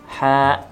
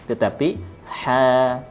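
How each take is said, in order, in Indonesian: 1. Vokal panjang ditutup dengan tegas. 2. Vokal panjang mengalir sampai nafas habis. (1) "ditutup dengan suara yang tegas" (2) "ha mengalir sampai habis hawa nafas"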